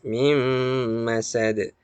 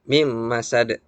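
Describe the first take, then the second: First: The nasal sound is held long. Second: The nasal sound is cut short. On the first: The speaker calls it right. "tapi harus" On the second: The speaker calls it wrong. "jangan hanya sekedar"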